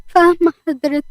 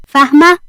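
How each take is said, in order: First: High, meek reply; tearful submission. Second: Loud, sharp rising question; stern warning. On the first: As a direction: answer submissively, small and raised in pitch. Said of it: "وهي منهارة من العياط". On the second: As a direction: demand confirmation as a threat. Boss warns fired employee. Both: A narrator's reading.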